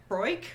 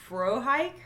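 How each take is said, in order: First: "Frohike" run together as FROYK; alternative pronunciation. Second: "Frohike" as FRO-hike, with a clear h; questioned pronunciation. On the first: Second guess at a cast name, "Frohike" squashed to FROYK. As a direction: say "Frohike" with an oy sound, no h, rising. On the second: Checking a cast name with the co-host, "Frohike" as FRO-hike. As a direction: say "Frohike" in two parts, FRO-hike, rising. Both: Shown as a demonstration. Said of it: "I think he called him Frohike".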